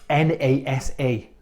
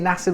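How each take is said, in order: First: It is spelled out letter by letter. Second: It is said as a single word. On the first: The speaker calls it wrong. "You don't say" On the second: The speaker calls it right. "you just say NASA"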